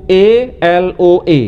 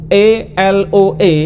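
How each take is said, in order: The two takes are said the same way.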